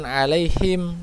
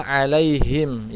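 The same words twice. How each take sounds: First: "alaihim" with the wrong kind of h. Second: "alaihim" with a firm breathed h; strong ha. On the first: Teacher shows the mistake, "alaihim" with wrong h. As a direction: say "alaihim" without the firm ha. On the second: Teacher models the last word, "alaihim" with strong h. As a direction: push the h in "alaihim". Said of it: "harus kuat". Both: Shown as a demonstration.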